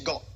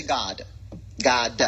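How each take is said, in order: First: "God" with its final D left off; God without D. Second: Low "God" with an exaggerated final D. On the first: Mocking the church habit, "God" without a D. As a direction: cut "God" off before the D. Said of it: "let's just stop saying". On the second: Teaching listeners to say "God" with a full D. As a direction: release the D of "God" as an extra beat. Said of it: "Let's say". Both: Shown as a demonstration.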